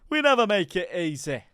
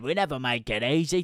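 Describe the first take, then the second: First: It is said in a Yorkshire accent. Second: It is said in a Cockney accent. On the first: The speaker calls it right. "Should have gone to Yorkshire" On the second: The speaker calls it wrong. "I did a bit of a Cockney accent"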